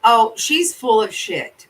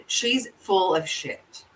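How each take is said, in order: First: Loud insistence. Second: Said in the usual way. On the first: Real, not acted. Venting about the case.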